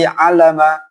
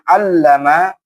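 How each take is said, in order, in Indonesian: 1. Bunyi l itu tunggal dan dibaca pendek. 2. Bunyi l itu dobel dan dibaca panjang. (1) "tidak boleh" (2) "ini harus ditekan"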